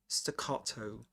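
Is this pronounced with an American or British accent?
British. It is said with a British accent. "So British"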